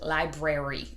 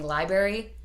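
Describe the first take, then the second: First: Every sound in the word is pronounced very carefully. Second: The word is said quickly with a sound dropped. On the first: "So I overpronounce it to library" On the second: "I think it sounds like I'm saying library"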